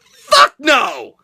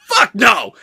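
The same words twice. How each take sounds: First: Louder, higher final shout; shouted refusal. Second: Louder firm exclamation; a flat-out emphatic no; emphatic refusal. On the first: Vlogger capping the rant for viewers, loud shouted refusal. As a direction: slam the answer down with a shout. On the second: Vlogger answering the moving question, emphatic loud refusal. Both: Real, not acted.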